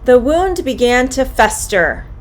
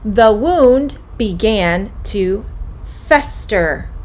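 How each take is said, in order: First: The sentence is said at a medium pace. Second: The sentence is said at a slow pace.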